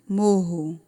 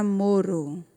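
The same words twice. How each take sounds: First: "morro" with an H-like R, MO-ho; double guttural R. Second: "moro" with a tongue-tap R; single tapped R. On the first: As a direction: keep the tongue down on the RR of "morro". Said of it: "Quando eu acrescento mais um R". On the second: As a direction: flick the tongue once on the R of "moro". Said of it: "Se dobra a língua, é só um R". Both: Shown as a demonstration.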